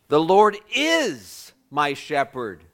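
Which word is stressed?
is. The stress is on the word is.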